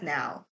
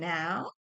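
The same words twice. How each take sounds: First: The voice falls at the end, like a statement. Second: The voice rises at the end, like a question. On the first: It is said as a statement. "not now" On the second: It is asked as a question. "I have to put a mar- question mark in here because she said now"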